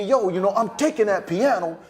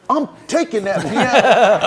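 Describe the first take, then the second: First: Mock Boy Willie. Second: Hammed-up, louder and slow; mock loud audition line. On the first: Actors auditioning as Boy Willie. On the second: Actor auditioning for the director, hammed-up loud. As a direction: bellow it slowly like a bad actor.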